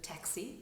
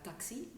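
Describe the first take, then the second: First: Said in the usual way. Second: "taxi" with an open French "ta", softer; French-accented "taxi", tah-xee. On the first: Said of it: "instead of taxi". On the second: Shown as a demonstration. Coach giving an example of the French A in "taxi". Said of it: "The French A is often sounds like ta".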